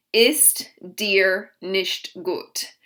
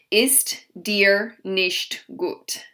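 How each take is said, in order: Both takes have the same delivery.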